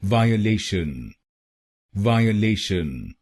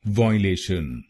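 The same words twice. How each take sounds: First: violation with the "le" stressed, "vaa-ye-LE-shan". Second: violation as "VOY-le-shan", stress at the start; wrong stress. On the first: Teacher showing where the stress falls, stress on the third syllable. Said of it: "तीसरे शब्दांश पर यानी एलए पर जोर डालना है". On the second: Teacher demonstrating the mistaken stress, wrong pronunciation. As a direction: hit the opening "voy" of violation, the common mistake. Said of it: "पहले दो शब्दांशों पर यानी वीआईओ पर जोर डालते हैं". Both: Shown as a demonstration.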